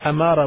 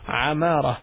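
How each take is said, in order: First: It starts with a plain vowel onset. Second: It starts with a throaty ain sound. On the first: It means sign. "with the Alif" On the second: It means prosper or one who instructs. "the A is pronounced here as Ain"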